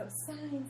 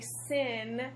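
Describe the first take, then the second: First: It has a long vowel, like 'sign'. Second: It has a short vowel, like 'sin'. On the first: The speaker calls it right. "you're supposed to pronounce it like sign" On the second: The speaker calls it wrong. "it's like nails on a chalkboard for me"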